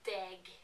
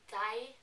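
First: The word ends with an audible g sound. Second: The word ends in a vowel with no g. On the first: "they say deg" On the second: "I say die"

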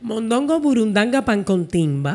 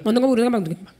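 First: The phrase is said slowly. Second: The phrase is said very fast.

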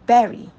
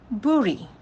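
First: It sounds exactly like the word 'berry'. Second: It has a vowel different from 'berry'. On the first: The speaker calls it right. "It is berry" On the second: The speaker calls it wrong. "not bury"

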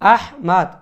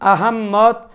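First: The name ends with a clear open 'mad' sound. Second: The name has a doubled 'mm' with an extra syllable. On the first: The speaker calls it right. "সঠিক আরবি যে শব্দ উচ্চারণ সেটা হলো আহমাদ" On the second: The speaker calls it wrong. "আহম্মদ বা আহম্মদ উচ্চারণ করার কোনো সুযোগ নেই"

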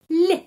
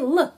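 First: The consonant is said soft, palatalized. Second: The consonant is said hard, not palatalized. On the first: The letter is followed by a soft sign. "tapi ada tanda pelemah, karena itu L menjadi L" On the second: The letter stands alone without a soft sign. "Kalau L sendiri L"

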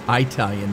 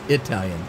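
First: The first vowel sounds like 'eye'. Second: The first vowel sounds like 'ih', as in Italy. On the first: The speaker calls it wrong. "it's not Italian" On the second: The speaker calls it right. "it's Italian. Because it's Italy"

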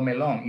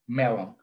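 First: The stress is on the second syllable. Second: The stress is on the first syllable. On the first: The speaker calls it wrong. "no melon" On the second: The speaker calls it right. "just the accent is at the beginning"

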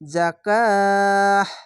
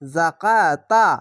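First: The word ends with an h sound. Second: The word ends with a t sound. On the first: The reader stops on the word. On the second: The reading continues without a stop.

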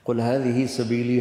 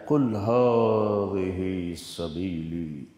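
First: It is said in a plain, ordinary tone. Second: It is said in a proud, lofty tone. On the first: "हमारा लहजा है" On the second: "Quran का लहजा है"

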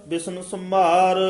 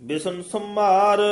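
No difference in how they are said.

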